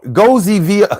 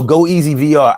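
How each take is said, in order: First: It is run together as one word. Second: It is said as separate words and letters. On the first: The speaker calls it wrong. "I would have read that as Goziver" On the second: The speaker calls it right. "hopefully I said it right"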